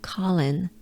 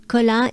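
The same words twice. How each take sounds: First: Said in the usual way. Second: Colin ending in a nasal French "un" vowel; French pronunciation. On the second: Shown as a demonstration. Teacher comparing names, Colin pronounced in French. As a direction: say Colin as co-LAN, French, without final n. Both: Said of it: "is the French version of Colin".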